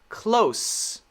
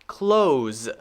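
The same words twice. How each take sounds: First: The word ends in an S sound. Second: The word ends in a Z sound. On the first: It is the adjective meaning near. "as an adjective, is an S sound" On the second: It is the verb meaning to shut. "As a verb, it's a Z sound as a verb"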